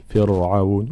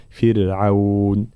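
First: فرعون with a thick, heavy ra, the wrong way. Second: فرعون slow, ra kept thin; correct thin ra. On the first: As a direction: say فرعون with a heavy ra to show the error. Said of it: "فلا نقول فرعون". (فرعون بتفخيم الراء خطأً) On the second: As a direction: draw out فرعون with a light ra. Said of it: "هكذا". (فرعون بترقيق الراء ببطء) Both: Shown as a demonstration.

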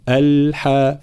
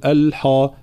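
First: الحاء with a thin, unheavy ح; light ha. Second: الحاء with a thick, darkened ح; heavy wrong ha. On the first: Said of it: "لابد من ترقيق الحاء". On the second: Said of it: "فلا نقول الحاء". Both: Shown as a demonstration.

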